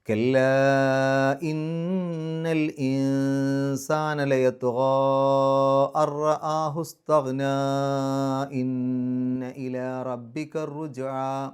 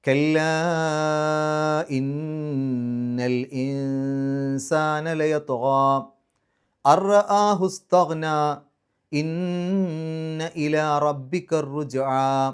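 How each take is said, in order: First: It runs the verses together without pausing. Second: It pauses at the end of each verse.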